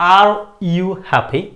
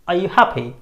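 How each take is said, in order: First: The word 'are' is pronounced in full. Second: The word 'are' is reduced and weak. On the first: The speaker calls it wrong. "এটাকে আমি পুরোটা কিন্তু আর বলছি না, আমি বলছি না" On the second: The speaker calls it right. "I am just saying"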